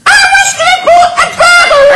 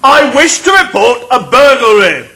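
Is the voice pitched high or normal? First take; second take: high; normal. First: It is said in a high pitch. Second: It is said in a normal pitch.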